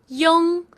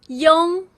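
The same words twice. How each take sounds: The two takes are said the same way.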